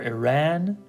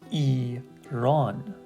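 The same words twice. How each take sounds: First: It is said with another English-style pronunciation. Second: The second syllable's vowel sounds like 'up'. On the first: The speaker calls it wrong. "or Iran, but that's not how we pronounce it" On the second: The speaker calls it right. "It's actually Iran"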